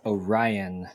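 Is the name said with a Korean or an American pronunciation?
American. The name is said with an American pronunciation.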